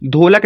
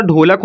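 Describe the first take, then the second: First: ढोलक with a dental d, marked as the wrong reading. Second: ढोलक said with a retroflex ढ, tongue curled back, "ḍholak"; ढोलक with a retroflex ḍh, the right way; correct reading. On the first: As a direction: start ढोलक with the tongue behind the teeth, dental "d". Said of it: "ढोलक नहीं होता". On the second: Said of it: "ढोलक होता है". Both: Shown as a demonstration.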